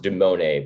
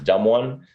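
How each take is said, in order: First: It is said as one blended name. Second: It is said as the words 'dumb one'. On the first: This is how its owner says it. "he'll pronounce it Dumone" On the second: It sounds like calling him dumb. "you can also pronounce it dumb one"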